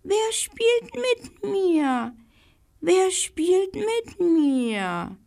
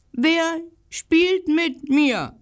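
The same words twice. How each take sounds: First: Very high, slow, delicate call; the squirrel hidden in the tree calling in a fine high voice; fine little voice. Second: High, slow, loud call of a lonely little dog; the little dog calling out loudly, slowly; loud bark. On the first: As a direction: call down from the leaves in a tiny voice. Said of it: "eine feine Stimme rief". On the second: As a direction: bark the question out to the empty street. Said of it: "bellte er laut". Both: A narrator's reading.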